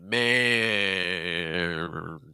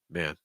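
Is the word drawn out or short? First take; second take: drawn out; short. First: The word is held out very long. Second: The word is said short, not held. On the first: The speaker calls it wrong. "You're really holding it, man. You know, it's like it's like super long" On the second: The speaker calls it right. "Each of these words can be the same amount of time"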